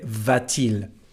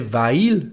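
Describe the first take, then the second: First: A t sound links the two vowels. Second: The two vowels run together with no t. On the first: The speaker calls it right. "but we say va-t-il" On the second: The speaker calls it wrong. "We don't say va-il"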